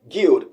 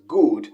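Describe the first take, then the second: First: A y sound follows the first consonant. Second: No y sound follows the first consonant. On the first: It shows a native-language influence. The speaker calls it wrong. "he said guild, guild, and of course that's a mother tongue interference there" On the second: It is the standard British pronunciation. The speaker calls it right. "the standard British pronunciation is good, good without the yield sound"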